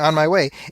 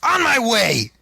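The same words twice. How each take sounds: First: It is said in a flat, plain tone. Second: It is said in an excited, emphatic tone.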